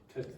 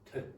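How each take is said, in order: First: The word is said quickly and quietly, weakened. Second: The same.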